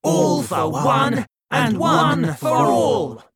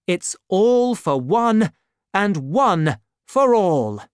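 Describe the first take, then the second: First: High, loud, slow rallying shout; group shout. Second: Slow, weighty pledge; solemn motto. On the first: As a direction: roar the motto together, united. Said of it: "the four of them repeated". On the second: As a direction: lay down the motto slowly for your friends. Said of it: "repeated D'Artagnan's words". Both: A narrator's reading.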